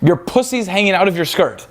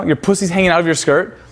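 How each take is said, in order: First: "Your pussy's hanging out of your skirt." stated with a falling, matter-of-fact tune; casual statement ending down; flat statement. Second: "Your pussy's hanging out of your skirt?" asked with a rising, innocent tune; line ends on an upward question. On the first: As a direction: say it like a dry fact. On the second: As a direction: toss it off as a concerned question. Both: Shown as a demonstration. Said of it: "That's how I get paid the big bucks".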